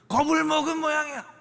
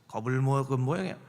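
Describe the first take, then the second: First: The line is said in a louder voice. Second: The line is said at a normal volume.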